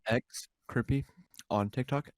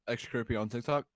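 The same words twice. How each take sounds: First: It is said more slowly. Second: It is said at normal speed.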